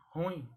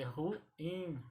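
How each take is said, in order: First: "ruim" run together as RÚIM; stressed U in "ruim", one syllable; common mispronunciation. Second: "ruim" broken up, ru-IM; stressed IM in "ruim"; two syllables. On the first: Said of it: "As pessoas pronunciam". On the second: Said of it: "a pronúncia correta é". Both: Shown as a demonstration.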